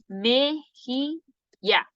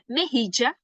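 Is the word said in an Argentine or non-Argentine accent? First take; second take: non-Argentine; Argentine. First: It is said without an Argentine accent. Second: It is said with an Argentine accent.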